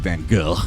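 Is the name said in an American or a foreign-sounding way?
foreign. The name is said with a foreign-sounding pronunciation. The speaker is showing off art knowledge. The speaker calls it wrong. "You don't have to say Van Gogh. You're some kind of pretentious art douche"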